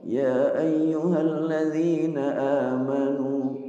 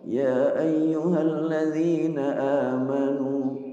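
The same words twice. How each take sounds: First: The opening vowel is held only briefly. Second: The same.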